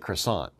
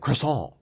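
First: It is pronounced the American English way. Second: It is pronounced the French way. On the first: "Americans say croissant" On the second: "the French would say croissant"

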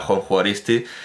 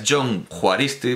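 First: The J is given its Spanish sound value. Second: The J is given its Basque sound value. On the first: This is the name adapted to the local language. "en nuestra pronunciación española" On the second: This is the original pronunciation of the name. "en realidad es John Juaristi, porque bueno, es que el vascuence, según el dialecto, pues pronuncia, da un valor distinto a la J"

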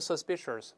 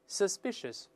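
First: The word is said with an added r sound. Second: The word is said with no r sound. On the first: The speaker calls it wrong. "同样不能读成suspicious，没有字母R" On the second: The speaker calls it right. "舌头是平的，再来一遍"

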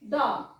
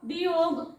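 First: It starts with a plain d sound. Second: It starts with the letter name dee. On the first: The speaker calls it right. "डी ड डॉग" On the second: The speaker calls it wrong. "डी ला डी असं म्हणून DOG डीओग असं काही वाचत नाही"

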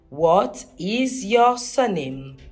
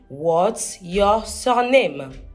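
First: The words what and is are said separately. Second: The words what and is are contracted together.

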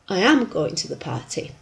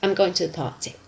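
First: The word 'am' is full and stressed. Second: The auxiliary is contracted and unstressed.

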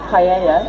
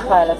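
First: The middle consonant sounds like a Y. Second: The middle consonant is a clear L sound. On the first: This is how Spanish speakers say it. "which you pronounce as paella in Spanish" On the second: This is how British speakers say it. "because we're British, so we pronounce the L"

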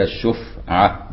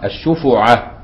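First: The f has no vowel after it. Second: The f is followed by a u vowel. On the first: The speaker calls it right. "زي ما بننطق كده الشفعة بسكون الفاء" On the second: The speaker calls it wrong. "وبعض الفقهاء يضمها الشفعة بيضم يعني الفاء"

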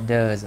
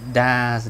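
First: The word is said with a reduced vowel. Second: The word is said with its full vowel. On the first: The speaker calls it right. "mà does" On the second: The speaker calls it wrong. "không còn đọc là thành does nữa"

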